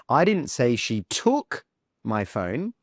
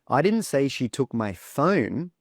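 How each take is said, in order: First: "took" punched, then "my phone" dropping away; stress on TOOK. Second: "phone" emphasized at the end; stress on PHONE. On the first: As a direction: hit the word "took" hard. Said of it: "let me stress the word took". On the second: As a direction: save the punch for the word "phone". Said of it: "change the stress to the word phone". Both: Shown as a demonstration.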